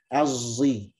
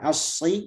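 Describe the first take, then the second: First: The consonant blends emphatic s with z. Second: The consonant is a heavy emphatic s. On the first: The speaker calls it right. "Tapi ini nyampur" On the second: The speaker calls it wrong. "kalau asyi itu murni sad"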